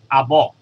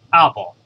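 First: Arbor with the stress on the last syllable, ar-BOR; wrong stress. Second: Arbor stressed on the second-to-last syllable, AR-bor; correct stress. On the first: Teacher demonstrating the wrong stress to students, ar-BOR. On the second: Teacher showing students the correct stress, AR-bor. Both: Shown as a demonstration. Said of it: "尾二嗰個音啦係重音嚟嘅".

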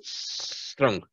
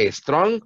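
First: Strong whispered with a long hissing s, like a gas leak; hissed pronunciation. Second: Strong said with an added e before the s, like estrong; wrong pronunciation. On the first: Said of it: "Como si tuviera una fuga de gas". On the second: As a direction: show the mistake, a Spanish-style estrong. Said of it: "con E no". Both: Shown as a demonstration.

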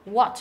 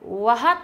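First: What with a silent h; what, plain w start; correct what. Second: What with the h sounded, wa-hat; wrong version. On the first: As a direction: say what without the h. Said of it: "bỏ luôn cái chữ H". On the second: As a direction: show the wrong breathy what. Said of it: "Không phải là". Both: Shown as a demonstration.

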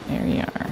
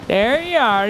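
First: Soft hushed whisper. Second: Put-on a light Scottish or Irish accent, punchy. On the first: Real, not acted. Spotting the hidden rogue in the game, whispered. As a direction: whisper it as you spot him. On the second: Taunting the rogue enemy he found, light Scottish accent. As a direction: slip into a jokey Scottish accent. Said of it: "Don't know why I got Scottish".

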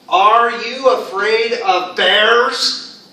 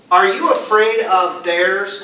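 First: Very slow, loud question rising on "bears"; question intonation. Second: Said in the usual way. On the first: Shown as a demonstration. Teacher demonstrates a question for learners, slow rising question. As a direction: stretch out "Are you afraid of bears", lifting the end. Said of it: "It's a question". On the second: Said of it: "if I ask you".

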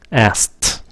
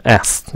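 First: "Asked" as "ast", with a released T; "Asked" without K, ending on a clear T; final T sounded. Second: "Asked" reduced to "ass", no final T; quick "Asked" that ends on the S; T dropped. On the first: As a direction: say "Asked" with a crisp T at the end. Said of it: "Có cái âm T phía sau". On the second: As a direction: say "Asked" fast, leaving off the T. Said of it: "các bạn cũng bỏ âm T". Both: Shown as a demonstration.

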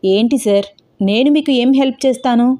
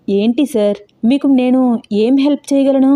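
First: A touch of surprise, lightly voiced vendor; puzzled, understated surprise; mild surprise. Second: Taken aback, voice climbing; surprised. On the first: Ice cream vendor puzzled by a stranger's request, mildly surprised. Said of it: "ఆశ్చర్యంగా చూస్తూ అడిగాడు". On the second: Acted. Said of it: "ఆశ్చర్యంగా చూస్తూ అన్నాడు".

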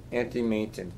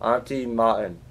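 First: "Martin" said like MAY-tin, quietly; low, unsure try at "Martin" as MAY-tin; trying a pronunciation. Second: "Martin" said like MAH-un, quietly; low second try at "Martin" with a broad AH; trying a pronunciation. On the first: Player puzzling out a name, "Martin" as MAY-tin. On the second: Player puzzling out a name, "Martin" as MAH-un. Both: Real, not acted. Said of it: "Eh, whatever it is".

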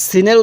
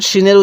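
First: সিনের with a thin, sharp "s" at the start; thin sin. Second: শিনের with a thick "sh" at the start; thick shin. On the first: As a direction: say সিনের with a fine s, not sh. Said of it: "সিনের উচ্চারণটা একটু চিকন হবে". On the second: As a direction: say শিনের with a fuller, heavier sh. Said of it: "শিনের উচ্চারণটা একটু মোটা হবে". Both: Shown as a demonstration.

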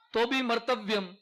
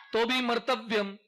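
No difference in how they are said.

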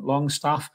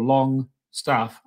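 First: Said in the usual way. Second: Slow, drawn-out "Longstaff"; Sean Longstaff's pronunciation. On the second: Retold or imitated. Host mimics the player from a video, drawn-out "Longstaff". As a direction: stretch out "Longstaff" as if imitating the player. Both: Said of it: "as he says in that lovely video".

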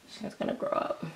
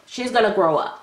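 First: Soft breathy whisper; hushed aside to the doll. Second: Said in the usual way. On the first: Real, not acted. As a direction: say it like a little secret.

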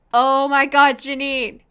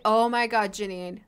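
First: A much louder burst on oh my God, then the name; louder exclamation. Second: Said in the usual way. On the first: Real, not acted. Gamer shouts at her Sim Janine, loud disbelief. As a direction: call out in real disbelief.

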